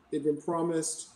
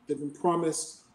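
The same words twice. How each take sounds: The two takes are said the same way.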